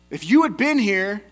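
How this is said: It is said in an accusing tone.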